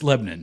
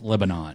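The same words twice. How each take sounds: First: It is said the local Tennessee way. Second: It is said the way the country's name is. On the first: This is how locals in Tennessee say it. "But here, it's Lebanon" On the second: This is how the country's name is said. "The country is pronounced Lebanon"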